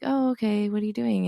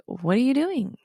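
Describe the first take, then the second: First: Patient. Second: Irritated mock demand; agitated. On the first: Retold or imitated. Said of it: "the first time I was a bit more patient". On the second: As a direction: snap it out, fed up. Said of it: "like, agitated".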